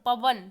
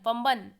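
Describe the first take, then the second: First: The word is said without any nasal sound. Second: The word is said with an added nasal sound. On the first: The speaker calls it right. "यहाँ पर पवन ऐसा ही है" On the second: The speaker calls it wrong. "पम्बन मतलब नाक से, नासिका से बोल रहा है"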